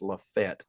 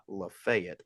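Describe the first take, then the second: First: The name is said short, like 'La-fet'. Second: The name is said in full, like 'La-fay-ette'. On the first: This is how the locals say it. The speaker calls it right. "It's Lafayette, like L A F E T" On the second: This is how outsiders say it. The speaker calls it wrong. "not Lafayette"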